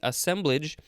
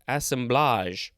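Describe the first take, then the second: First: The word is said in a plain, ordinary way. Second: The word is said in a fancy-sounding way.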